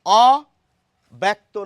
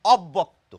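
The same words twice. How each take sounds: First: "অব্যক্ত" stretched very slowly and loudly as "o-bekto", single b; drawn-out loud "অব্যক্ত" as it is spelled, marked wrong; wrong spelled-out reading. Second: "অব্যক্ত" said as "obbokto" with a doubled b; natural "অব্যক্ত": "ob-bokto"; fluent real pronunciation. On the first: Teacher warns students against this reading, slow and loud. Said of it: "নয়". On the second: Teacher gives students the everyday fluent form. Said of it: "আমাদের সাবলীল উচ্চারণে". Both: Shown as a demonstration.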